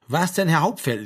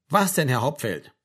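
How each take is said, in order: First: Mild reprimand, higher and louder; lightly voiced sergeant supplying the proper address; correcting. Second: Understated, obedient echo; dutiful repetition. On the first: Sergeant corrects missing form of address. (leicht zurechtweisend, lauter vorgesprochen) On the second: Acted. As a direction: repeat it as told, with little enthusiasm. Frank dutifully repeats the corrected phrase. (pflichtschuldig nachgesprochen, zurückgenommen)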